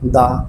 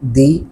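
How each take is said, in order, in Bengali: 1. 'the' এর স্বরধ্বনি 'uh' এর মতো শোনায়। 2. 'the' এর স্বরধ্বনি 'ee' এর মতো শোনায়। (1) "তার উচ্চারণ হবে দা" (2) "তাহলে উচ্চারণ হবে দি"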